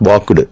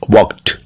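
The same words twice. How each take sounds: First: The ending is not a plain t sound. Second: The ending is a plain t sound. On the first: The speaker calls it wrong. "Not walked" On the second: The speaker calls it right. "T sound"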